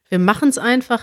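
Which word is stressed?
machen's. The stress is on machen's.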